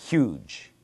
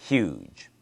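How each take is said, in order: The two takes are said the same way.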